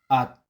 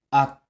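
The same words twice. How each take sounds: First: The syllable ends with a t sound. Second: The same.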